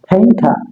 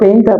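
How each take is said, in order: First: The first p sound is strongly breathy. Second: The first p sound is plain, without breath. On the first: The speaker calls it right. "সেটা পেইন্টারের ভাষাতে ফেইন্টা" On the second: The speaker calls it wrong. "আবার পেইন্টার বলতাম"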